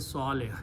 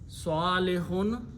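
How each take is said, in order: First: The word ends without the -un ending. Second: The word ends with a full -un ending. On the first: The speaker stops after the word. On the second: The word is said in the middle of speech.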